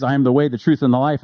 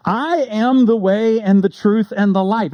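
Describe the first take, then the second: First: Said in the usual way. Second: Slow, raised, stress on am; proclaimed. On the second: Shown as a demonstration. Preacher proclaiming Jesus's famous phrase, slow and emphatic. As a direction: lean on "am" and draw out "I am the way and the truth and the life". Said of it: "gives this famous phrase".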